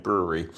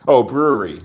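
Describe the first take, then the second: First: Soft, low "Brewery" said to himself; quiet repeat. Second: Bright, louder "brewery" as it dawns on him; sudden realisation. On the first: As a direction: mutter "Brewery" under the breath. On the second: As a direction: say "brewery" with an aha lift. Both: Real, not acted. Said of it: "Never mind".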